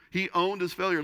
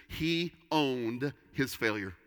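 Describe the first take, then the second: First: "He owned his failure" pushed higher and louder; emphatic repeat. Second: Slow, weighted statement of the point; slow and deliberate. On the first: Pastor hammering his point to the congregation, higher and louder. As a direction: drive "He owned his failure" home with force. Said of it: "He owned it". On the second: Pastor stating his first point to the congregation, slow and deliberate. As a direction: lay "He owned his failure" down slowly, word by word. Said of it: "The first one simply is this". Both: Shown as a demonstration.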